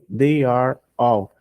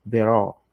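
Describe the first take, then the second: First: They and are are said as two full words. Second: They and are are run together as one syllable. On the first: "Ao invés de pronunciar tudo certinho, bonitinho" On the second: "They, contraído"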